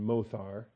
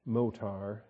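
First: The middle consonant is a soft th sound. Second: The middle consonant is a hard t sound. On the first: "I prefer to have a softer th pronunciation" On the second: "some people would pronounce this motar"

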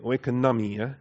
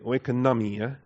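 First: The middle of the word has an 'n' sound. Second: The same.

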